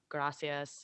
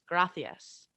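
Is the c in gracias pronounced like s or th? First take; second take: s; th. First: The c is pronounced like an s. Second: The c is pronounced like a th.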